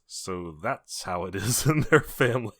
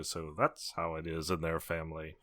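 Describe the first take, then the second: First: Slow, deliberate movie quote with a laugh; Ed Rooney quote. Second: Low, soft deadpan quote; quoting aside. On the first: Retelling the school pickup scene, slow amused quote. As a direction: draw it out slowly, laughing midway. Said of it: "Ed Rooney goes". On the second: Turning to Olivia after someone acts weird, low quiet aside. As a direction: drop it low like a private aside. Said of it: "I'll just kinda turn to Olivia and go". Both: Acted.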